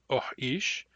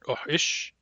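First: The second syllable is long. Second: The second syllable is short. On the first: This is how some dialects say it. "short long" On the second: This is how other dialects say it. "it's pronounced short short"

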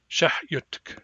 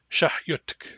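The two takes are said the same way.

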